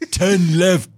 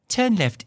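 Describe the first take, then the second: First: It is said in a rural Zulu accent. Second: It is said in a British accent. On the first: The speaker calls it right. "I want some very rural, like Zulu accent" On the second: The speaker calls it wrong. "you got this like British accent and it's a woman's voice"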